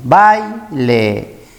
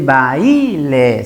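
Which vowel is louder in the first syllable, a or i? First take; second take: a; i. First: The open vowel a is said louder. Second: The closed vowel i is said louder. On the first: The speaker calls it right. "la vocal que tiene mayor intensidad es la A" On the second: The speaker calls it wrong. "no se dice baile"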